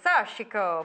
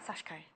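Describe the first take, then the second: First: The middle i vowel is clearly pronounced. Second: The middle i vowel is dropped. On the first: The speaker calls it wrong. "I used to say it in Italian" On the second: The speaker calls it right. "So ignore the I in it"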